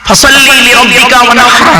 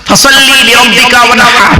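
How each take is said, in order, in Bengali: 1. h-টি গলার গভীর থেকে করা হয়। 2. h-টি গলার গভীর থেকে করা হয়।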